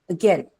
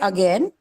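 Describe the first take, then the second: First: The first vowel is reduced and nearly inaudible. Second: The first vowel is pronounced clearly. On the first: "when an English speaker uses it, it's like again" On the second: "we say again"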